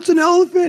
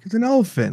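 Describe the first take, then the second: First: It is said with excited, impressed wonder. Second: It is said flatly, sounding unimpressed. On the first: Other people find elephants amazing. "people are like, oh" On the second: The speaker finds elephants unremarkable. "I'm like"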